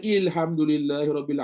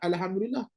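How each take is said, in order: First: The first vowel is a front 'i' sound. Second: The first vowel is an open 'a' sound. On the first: The speaker calls it wrong. "Bacalah ilhamdulillahirabbil" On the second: The speaker calls it right. "yang kau baca alhamdulillah tu boleh pula"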